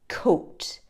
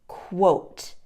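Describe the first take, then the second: First: The word begins with a plain K sound. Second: The word begins with a KW sound. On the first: The speaker calls it wrong. "the mistake that students often make is saying coat, pronouncing the Q U as a K sound" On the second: The speaker calls it right. "to correctly pronounce it, it's a qu sound"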